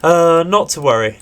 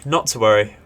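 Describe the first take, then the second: First: Higher and louder, bouncing back; upbeat reassurance. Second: Said in the usual way. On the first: Real, not acted. Gamer reassuring viewers after losses, upbeat. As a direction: brush it off brightly.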